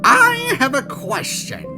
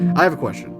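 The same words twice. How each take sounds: First: It is said in a Papyrus impression. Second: It is said in his normal voice.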